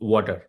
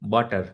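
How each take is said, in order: First: The first sound uses both lips rounded together. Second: The first sound uses upper teeth on lower lip. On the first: The speaker calls it right. "આમ બે હોઠ જોડે આવવા આવવા જોઈએ" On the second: The speaker calls it wrong. "વોટરની જગ્યાએ વોટર એ બોલીએ"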